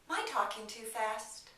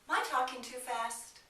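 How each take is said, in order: First: "Am I" is reduced to sound like "my". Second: "Am I" is reduced to sound like "my".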